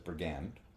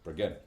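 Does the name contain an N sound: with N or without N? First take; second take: with N; without N. First: The name is said with an N sound. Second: The name is said without an N sound. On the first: The speaker calls it wrong. "It has been pronounced as Brigand with an N. That is incorrect" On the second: The speaker calls it right. "but it is Brigand"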